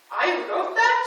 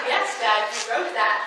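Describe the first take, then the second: First: Voiced as a startled question, higher and louder; dad's surprised question. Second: Said in the usual way. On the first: Dad to daughter hearing his own poems, surprised question. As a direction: imitate Dad's disbelief, rising at the end. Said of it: "what does he say to me". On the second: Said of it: "And I said".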